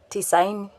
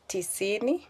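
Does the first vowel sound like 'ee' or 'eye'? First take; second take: eye; ee. First: The first vowel is an eye sound. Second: The first vowel is a plain ee sound.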